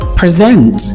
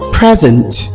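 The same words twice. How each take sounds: First: The stress is on the second syllable. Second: The stress is on the first syllable. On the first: It is used as a verb. "But as a verb, this is present" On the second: It is used as a noun. "as a noun, this is present"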